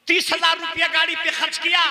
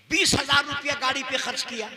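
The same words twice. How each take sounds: First: Raised, high preaching voice; emphatic pulpit outcry; indignant repeat. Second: Said in the usual way. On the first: Real, not acted. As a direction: throw the sum out at the crowd. Repeats expense with more force.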